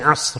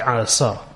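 First: The final consonants are said together without a vowel. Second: A vowel is inserted between the final consonants. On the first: This is the original Arabic form. The speaker calls it right. "Instead of saying Asr" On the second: The speaker calls it wrong. "we say Asr"

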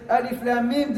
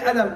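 First: Each letter is named separately by its full name. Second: The letters are blended into one short word. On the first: The speaker calls it right. "We say Alif Lam Mim" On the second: The speaker calls it wrong. "We don't say Alam"

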